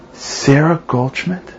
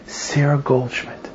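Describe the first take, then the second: First: "Sarah Goldschmidt" drawn out slowly, rising at the end; astonished echo question. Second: Slow, soft naming of his mother; retold quiet answer. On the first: Retold or imitated. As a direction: repeat "Sarah Goldschmidt" as a slow, amazed question. Woman repeats name, astonished. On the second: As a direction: give the name softly, as a statement. Man answers with mother's name.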